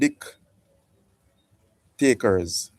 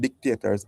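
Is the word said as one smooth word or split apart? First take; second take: split apart; one word. First: The word is split into 'dick' and 'takers'. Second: The word is said smoothly as one word.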